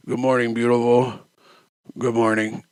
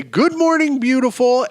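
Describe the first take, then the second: First: Low, drained morning greeting; very hungover. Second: High, chirpy good-morning call; bright, happy morning greeting. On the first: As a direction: say good morning through a heavy hangover. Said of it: "unless I'm very hungover". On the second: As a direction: greet the day bright and bushy-tailed. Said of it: "I wake up every morning bright". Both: Shown as a demonstration.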